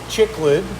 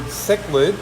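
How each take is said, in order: First: The word begins with a 'ch' sound. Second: The word does not begin with a 'ch' sound. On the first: The speaker calls it wrong. "they were calling it chicklid, like the gum" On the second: The speaker calls it right. "trying to pronounce the word cichlid"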